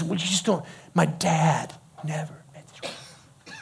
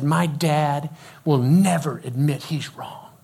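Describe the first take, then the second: First: Deflated protest. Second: Slow, emphatic retold grievance; firm complaint. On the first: Retold or imitated. Challenged teenager repeating his complaint, deflated protest. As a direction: falter and trail off quietly in protest. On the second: Teenager complaining about his dad, firm complaint. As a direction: state it slowly as a settled verdict.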